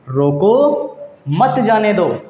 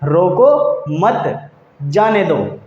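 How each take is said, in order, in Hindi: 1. पहले शब्द के बाद विराम है। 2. दूसरे शब्द के बाद विराम है। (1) "उच्चारण को हमने कुछ विराम दिया एक शब्द के बाद में" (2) "अल्प विराम की स्थिति को बदल देंगे"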